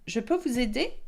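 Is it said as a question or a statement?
question. It is said with question intonation. It asks whether help is wanted. "You can put that into a question"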